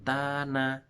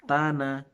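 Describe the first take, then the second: First: The first vowel is long. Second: The first vowel is short.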